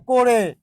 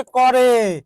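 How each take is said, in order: First: করে said "ko-re", closed o; o-sound pronunciation. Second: করে said "kaw-re", open first vowel; open-vowel pronunciation. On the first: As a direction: say করে with an o-kar, "ko-re". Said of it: "উচ্চারণ হচ্ছে করে". (করে-কে ওকার দিয়ে "কোরে" উচ্চারণ) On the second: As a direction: say করে without o-kar, "kaw-re". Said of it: "যে উচ্চারণ হচ্ছে করে". (করে-র ক-তে খোলা অ উচ্চারণ) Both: Shown as a demonstration.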